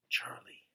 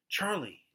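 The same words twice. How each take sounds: First: The name is said softly. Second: The name is called out loudly.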